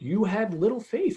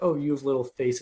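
First: It sounds encouraging, like warm praise for trying. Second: It sounds disappointed, like a scolding rebuke.

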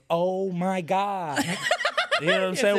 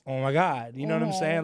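First: Each word is pronounced separately with clear consonants. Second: The words run together with hardly any consonants. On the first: This is how people in another city talk. "they, like, round their" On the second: This is how people back home talk. "you don't hear no consonants is just, like, a one-worded thing"

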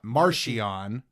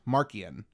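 First: The middle consonant is a 'ch' sound. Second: The middle consonant is a 'k' sound. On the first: The speaker calls it wrong. "it's not a C-H like a ch" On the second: The speaker calls it right. "it's like a K sound"

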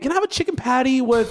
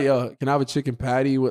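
First: It is said in a put-on polite voice. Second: It is said in a casual everyday voice.

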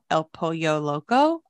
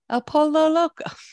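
First: The double L is said like a Y. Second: The double L is said like an L. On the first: The speaker calls it right. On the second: The speaker calls it wrong.

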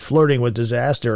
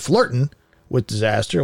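First: Flirting ends with a full -ing sound. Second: Flirting ends in -in without the g. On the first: The speaker calls it wrong. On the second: The speaker calls it right.

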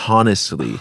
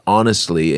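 First: The word is pronounced in an odd way. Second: The word is pronounced in the ordinary way. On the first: The speaker calls it wrong. "you made me pronounce this word really weird" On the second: The speaker calls it right. "there was a word honestly"

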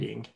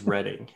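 First: The first syllable sounds like 'reed'. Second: The first syllable sounds like 'red'. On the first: The speaker calls it wrong. "It's not Redding. Reading" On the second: The speaker calls it right. "it is Redding"

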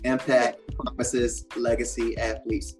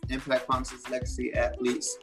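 First: It is said at a slow pace. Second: It is said at a quick pace.

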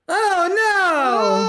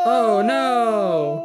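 First: It is said at the highest pitch. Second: It is said at the lowest pitch.

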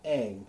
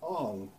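First: The vowel sounds like the a in cat. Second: The vowel sounds like the o in long. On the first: This is how the original show says the name. The speaker calls it right. "It's pronounced Aang" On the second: This is how the film adaptation says the name. The speaker calls it wrong. "So they pronounce it Ong"

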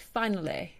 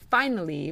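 First: The word ends with a non-E vowel. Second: The word ends with an E sound. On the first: The speaker calls it right. "but finale" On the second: The speaker calls it wrong. "the Y sound is not an E sound, so the word finally is not finally"

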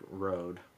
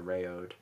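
First: The vowels are merged into one syllable. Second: The vowels are said as separate syllables. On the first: "kind of mush those even together" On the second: "we might read it and say, like"

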